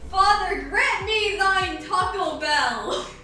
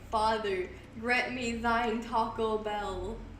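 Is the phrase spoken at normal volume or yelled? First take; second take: yelled; normal. First: It is yelled out very loudly. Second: It is spoken at a normal volume.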